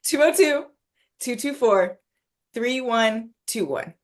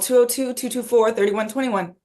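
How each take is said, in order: First: The number is said at a slower pace. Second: The number is said at a quick pace.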